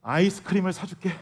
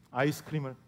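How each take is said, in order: First: Said in the usual way. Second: 아이스크림을 repeated much softer and lower, trailing off; soft repeat of 아이스크림을 to the kids in the car; quiet echo. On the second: Retold or imitated. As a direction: murmur 아이스크림을 again as a soft afterthought. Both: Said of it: "제가 이렇게 말했습니다".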